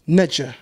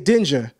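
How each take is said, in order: First: The word begins with an N sound. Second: The word begins with a D sound. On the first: The speaker calls it right. "The Sumerians would pronounce it Nedja" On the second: The speaker calls it wrong. "you would never look at Dingir ... and say Dinger"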